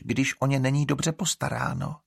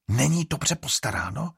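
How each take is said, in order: First: Said in the usual way. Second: Indignant exclaim. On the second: A narrator's reading. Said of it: "zvolala Estrid".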